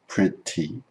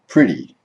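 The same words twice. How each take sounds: First: The middle consonant is a clear T sound. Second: The middle consonant is a soft D sound. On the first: The speaker calls it wrong. "the word is not pronounced pretty" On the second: The speaker calls it right. "it changes to pretty"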